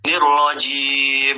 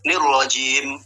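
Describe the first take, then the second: First: The final m flows on for a long time. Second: The final m is cut off abruptly. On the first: "Itu namanya mengalirnya suara" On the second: "Itu tertahannya suara"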